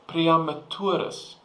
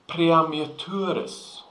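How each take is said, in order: The two takes are said the same way.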